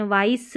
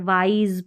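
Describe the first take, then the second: First: "वाइस" ending in voiceless s; wrong reading with S. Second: "वाइज" ending in a buzzed z; correct Z ending. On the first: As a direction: end "वाइस" on s instead of z. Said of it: "वाइस नहीं पढ़ते हैं". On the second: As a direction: end "वाइज" on a voiced z. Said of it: "वाइज पढ़ना पड़ता है". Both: Shown as a demonstration.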